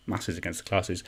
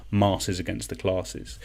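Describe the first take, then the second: First: "Masses" with a short flat A as in cat, "Classes" with a long AH; "Masses" short-vowelled against a long-vowelled "Classes". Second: "Masses" drawn out with a long AH to rhyme with "Classes"; forced rhyme, long AH in both "Masses" and "Classes". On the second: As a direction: slowly say "Masses" as MAH-siz, matching "Classes" as CLAH-siz. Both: Shown as a demonstration. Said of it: "Doesn't really work in my accent".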